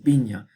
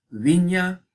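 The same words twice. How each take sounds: First: The word is said without a fricative consonant. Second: The word is said with a fricative consonant. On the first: This is the modern Spanish form. "debe ser en el español moderno, pues viña" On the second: This is the medieval Castilian form. "esta versión con fricativa ... algo así en castellano medieval"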